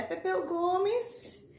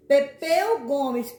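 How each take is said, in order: First: Said in the usual way. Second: Louder. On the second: Shown as a demonstration. ("[name]" mais alto, com ênfase em "Pepeu")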